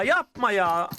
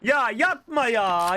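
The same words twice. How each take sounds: First: Said in the usual way. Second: Drawn-out dismay. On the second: Real, not acted. Dismay at death.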